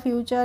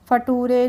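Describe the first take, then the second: First: The word ends in a 'cher' sound. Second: The word ends in a 'toor' sound. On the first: The speaker calls it right. "तभी तो पढ़ा है" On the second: The speaker calls it wrong. "ऐसे तो नहीं पढ़ा है"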